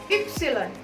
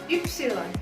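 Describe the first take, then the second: No difference in how they are said.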